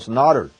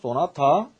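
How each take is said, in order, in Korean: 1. 영어식 발음으로 해요. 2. 한국어 외래어로 발음해요. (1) "이렇게 얘기를 하는 것입니다" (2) "소나타는 한국어입니다"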